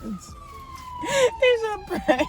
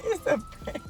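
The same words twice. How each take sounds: First: Drawn-out sing-song reveal. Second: Squealed prank reveal. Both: Real, not acted.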